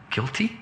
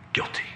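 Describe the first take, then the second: First: High, questioning rise on the plea; hesitant plea. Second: Short, low-key pronouncement; judge's verdict. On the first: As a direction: offer it up as an unsure question. Son pleads hesitantly before father. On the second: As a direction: hand down the verdict without any question. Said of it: "Dad looks over and he says to me". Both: Acted.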